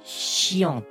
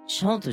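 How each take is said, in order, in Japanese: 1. この単語は 'shiont' に聞こえます。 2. この単語は 'shant' に聞こえます。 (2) "シャントじゃなくて、"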